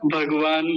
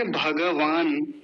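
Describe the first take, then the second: First: भगवान as bhag-vaan with ga halved; Hindi pronunciation. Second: भगवान slowly as bha-ga-vaan, full ga; Sanskrit pronunciation. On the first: Teacher recalling the Hindi way, half-ga pronunciation. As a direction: drop the vowel after g in भगवान. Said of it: "ग को आधा कर देते हैं". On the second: Teacher giving the Sanskrit way, full-vowel pronunciation. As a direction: sound every vowel in भगवान, drawn out. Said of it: "लेकिन संस्कृत में क्या बोलेंगे". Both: Shown as a demonstration.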